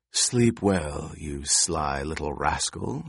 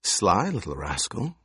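First: Lower, slower sly goodnight; drawn-out crone farewell; low, slow old crone. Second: Put-on chuckling old woman, sly; a sly crone, amused. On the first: Crone bids boy goodnight. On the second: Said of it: "She chuckled". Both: A narrator's reading.

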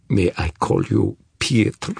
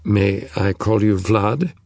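First: Put-on Russian-accented question. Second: Said in the usual way. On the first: A narrator's reading. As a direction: ask it back with a thick Russian accent. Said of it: "still in a thick Russian accent".

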